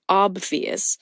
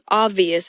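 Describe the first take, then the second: First: The b sound is clearly pronounced. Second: The b sound is left out. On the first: "instead of obvious" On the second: "she's saying obvious"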